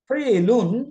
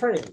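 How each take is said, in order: First: The word ends with an added '-un' syllable. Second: The word ends on a bare final consonant.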